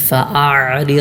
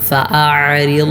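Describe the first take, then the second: The two takes are said the same way.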